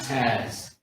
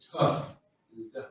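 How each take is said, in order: First: It is clipped into a single syllable. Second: It is said as two separate syllables. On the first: The speaker calls it wrong. "not Taz" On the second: The speaker calls it right.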